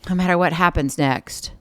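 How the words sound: The pitch drops at the end. It sounds defeated and resigned. The speaker calls it wrong. "The drop in the tone?"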